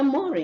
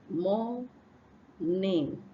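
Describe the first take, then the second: First: The n sound before the ending is left out. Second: The n sound before the ending is clearly said. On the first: The speaker calls it wrong. "you omit this N sound" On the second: The speaker calls it right. "It's morning"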